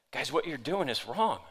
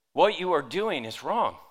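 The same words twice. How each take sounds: First: Said in the usual way. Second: Each word of "What you are doing is wrong" weighted, pitch swinging up and down; emphatic repetition. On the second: Retold or imitated. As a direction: spell out "you are doing" in full, with firm stress. Rebuke repeated for emphasis.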